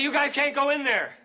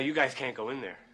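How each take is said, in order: First: It is said loudest of all. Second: It is said at a normal, quiet volume.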